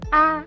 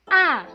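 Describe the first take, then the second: First: It is short and light with no contour. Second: The pitch falls sharply from high to low. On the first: "tidak berisikan nada ... ringan dan pelan" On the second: "turun ke bawah kanan ... seperti orang menyentak"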